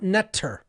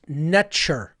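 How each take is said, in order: First: The middle consonant is a t sound. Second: The middle consonant is a ch sound. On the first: The speaker calls it wrong. "not Netter, as many people will pronounce it" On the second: The speaker calls it right. "was actually pronounced Netcher"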